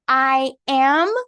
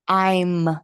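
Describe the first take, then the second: First: It is said as two separate words. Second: It is said as one contracted syllable. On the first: The speaker calls it wrong. "Não vou falar I am. Gente, ninguém fala I am" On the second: The speaker calls it right. "as pessoas geralmente falam I'm. Eu vou juntar, contrair o I com am"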